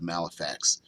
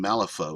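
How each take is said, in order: First: The last syllable sounds like 'fax'. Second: The last syllable sounds like 'faux'. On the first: The speaker calls it wrong. "not F A X" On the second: The speaker calls it right. "Malifaux instead of Malifax, because uh, it's a F A U X"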